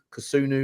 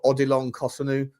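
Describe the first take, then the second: First: "Kosunu" stressed on the middle syllable; "Kosunu" with a full oo in the middle; alternative pronunciation. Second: "Kosunu" stressed on the first syllable; "Kosunu" with a short, unstressed middle vowel; unsure pronunciation. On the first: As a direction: say "Kosunu" as kuh-SOO-noo. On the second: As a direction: say "Kosunu" as KOSS-uh-noo. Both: Shown as a demonstration. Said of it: "don't know how you say his name".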